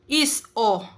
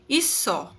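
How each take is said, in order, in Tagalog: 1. Magkahiwalay ang katinig at patinig. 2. Diretsong nakadikit ang katinig sa patinig. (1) "instead na is o" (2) "Ang kanyang magiging pronunciation ay iso"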